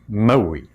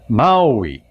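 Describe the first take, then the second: First: The first vowel is short. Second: The first vowel is lengthened. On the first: It names the island. "the island is called Maui, if you want to pronounce it correctly" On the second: It names the hero. "with a little bit of length on the A"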